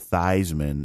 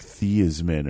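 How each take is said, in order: First: The first part rhymes with 'Heis' in Heisman. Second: The first part does not rhyme with 'Heis'. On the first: It was changed to evoke the trophy. "pronounce it that way because it sounds closer to Heisman Trophy" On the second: This is the family's original pronunciation. "his name wasn't Theismann. It was something else. It's like Theismann or something"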